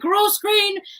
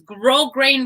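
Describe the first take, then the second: First: The first syllable ends with an s sound. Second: The first syllable ends without an s sound. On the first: The speaker calls it wrong. ""That's not how you pronounce it."" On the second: The speaker calls it right. "it's grow grain ribbon"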